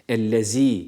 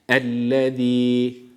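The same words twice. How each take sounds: First: The z is a sharp hissing z sound. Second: The z is a soft lisped th-like sound. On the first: The speaker calls it wrong. "Bunu keskin olan z harfi olarak okumuyoruz. Ellezî değil" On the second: The speaker calls it right. "Hepsindeki harf peltek olan z harfidir"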